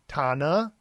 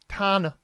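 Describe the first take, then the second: First: The pitch rises on the final syllable. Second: The pitch drops low on the final syllable. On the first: The speaker calls it wrong. "so there's that rising at the end" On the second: The speaker calls it right. "you're going to be lower"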